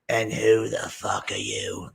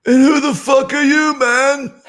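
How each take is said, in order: First: Slow, softer contemptuous challenge. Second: Very high, loud falsetto impression; mocking high-pitched challenge. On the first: Retold or imitated. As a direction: imitate an angry woman turning on a stranger. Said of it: "she goes". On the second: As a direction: squeal it like a tickled old rocker, then chuckle. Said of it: "he walks by and goes".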